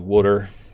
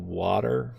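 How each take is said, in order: First: It is said like wooder, Philadelphia style. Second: It is said with a standard t sound. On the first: This is how the speaker always says it. "I say water" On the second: This is how other people say it. "I guess that's how you would say it"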